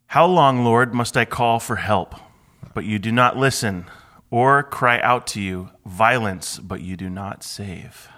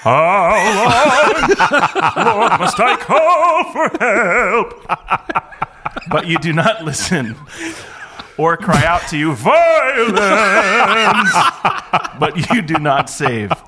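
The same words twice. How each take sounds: First: It is read in a plain speaking voice. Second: It is read in a put-on opera voice.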